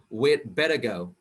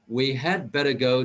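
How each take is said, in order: First: The word had is contracted to 'd. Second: The word had is said in full. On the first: The speaker calls it right. "we use the short form or the contraction form" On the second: The speaker calls it wrong. "We don't say we had better go word by word"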